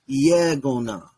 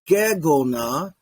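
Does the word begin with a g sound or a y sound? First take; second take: y sound; g sound. First: The word begins with a y sound. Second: The word begins with a hard g sound. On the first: The speaker calls it right. "turns into like a y sound" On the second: The speaker calls it wrong. "It's not gegona"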